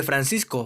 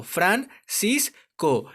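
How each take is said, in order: First: Said in the usual way. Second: Very slow "Fran cis co", each syllable on its own. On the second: Shown as a demonstration. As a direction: say "Fran... cis... co" with pauses between. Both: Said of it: "cómo se separan en sílabas".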